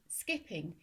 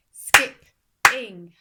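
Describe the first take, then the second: First: Said in the usual way. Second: "skip-ing" in two slow, loud beats; split into syllables. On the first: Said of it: "the beats in a word". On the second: Shown as a demonstration. Teacher showing two syllables, "skip-ing" beat by beat. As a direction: hit each half of "skip-ing", gap between. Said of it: "going to show you now".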